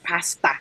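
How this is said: Said the Ghanaian way, sounding like pasta. "Ghanaians are like pasta"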